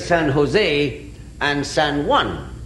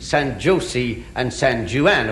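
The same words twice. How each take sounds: First: The J is pronounced as an H. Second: The J is pronounced as a hard J. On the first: The speaker calls it right. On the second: The speaker calls it wrong.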